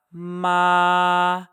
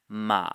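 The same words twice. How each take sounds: First: MA held long on one high, level pitch; sing-steady high Ma without any bend. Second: MA sinking low and drawn out; low dipping tone. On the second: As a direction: let ma sag to the bottom of your range. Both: Shown as a demonstration. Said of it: "compare that to the next tone".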